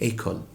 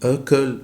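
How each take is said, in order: First: The first vowel is an open 'ay' sound. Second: The first vowel is a muffled, closed sound. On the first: The word means school. The speaker calls it right. "فخليته يبقى اي مفتوح في النطق" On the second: The word has no meaning. The speaker calls it wrong. "هنطقها او، تبقى اكل وليس لها معنى"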